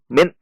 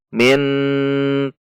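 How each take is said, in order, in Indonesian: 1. Kata ini terputus dengan sentakan tiba-tiba. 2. Bunyi sengau di akhir kata ini dipanjangkan. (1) "tidak boleh dihentak seperti contoh min" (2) "atau dipanjangkan"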